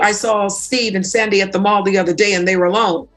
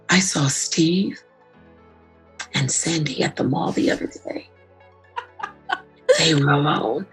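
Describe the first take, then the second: First: The tone is casual and matter-of-fact. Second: The tone is suggestive and insinuating. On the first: Nothing notable happened. "you're thinking big deal just from my tone alone" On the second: Something scandalous may be going on. "listen to my voice"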